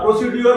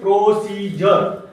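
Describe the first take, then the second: First: The middle consonant is a plain 'd' sound. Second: The middle consonant is a 'j' sound. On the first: The speaker calls it wrong. "नाही" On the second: The speaker calls it right. "त्याला ज म्हणून वापरायचं"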